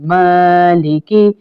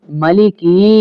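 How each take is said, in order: First: मालिकी with a long held maa and a slow rise; मालिकी recited slowly, maa drawn out; long maa, correct. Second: मलिकी with a clipped short first vowel; मलिकी quickly, first a not lengthened; short ma, wrong way. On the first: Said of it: "माँ को drop नहीं करेंगे". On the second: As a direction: say मलिकी without holding the ma. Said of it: "मलिकी यूं नहीं पढ़ेंगे". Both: Shown as a demonstration.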